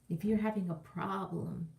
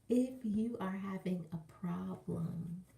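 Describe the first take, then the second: First: It is said at normal speed. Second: It is said slowly.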